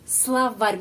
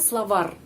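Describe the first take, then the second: First: The final R is softened, palatalized. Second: The final R is hard, not palatalized. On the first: The speaker calls it right. "Ada tanda pelemah yang melemaskan huruf R terakhir" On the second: The speaker calls it wrong. "bukan словар"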